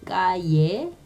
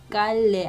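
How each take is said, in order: First: The double L sounds like an English Y. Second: The double L sounds like an English L. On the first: The speaker calls it right. "깔레 아니고 까예" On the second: The speaker calls it wrong. "깔레 아니고"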